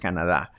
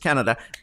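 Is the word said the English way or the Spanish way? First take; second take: Spanish; English. First: The word is said with a Spanish pronunciation. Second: The word is said with an English pronunciation. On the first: "In Spanish, it is Canada" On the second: "but in English, it's Canada"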